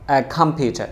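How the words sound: The t is a crisp, clear t sound. "এটা ব্রিটিশরা বলবে"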